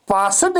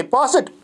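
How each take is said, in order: First: पासट with a full vowel before t; wrong pronunciation. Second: पासट ending in a t sound; correct pronunciation. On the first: Teacher shows students the wrong form. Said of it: "पासट नहीं है". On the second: Teacher shows students the right ending. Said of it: "टो की आवाज़". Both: Shown as a demonstration.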